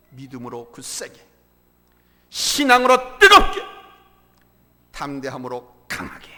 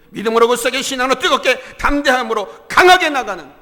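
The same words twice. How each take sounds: First: Low, spaced phrases with a loud burst on 뜨겁게; measured exhortation. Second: Loud, raised, run-on preacher's chant; rallying cry. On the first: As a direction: set out each phrase after a pause, swelling only in the middle. Slogan first stated with measured pauses. (또박또박 끊어 낮게, "뜨겁게"만 힘주어) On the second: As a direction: fire up the congregation without pausing. Slogan repeated as a rallying cry. (쉼 없이 힘차게 외치는 선포) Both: Real, not acted.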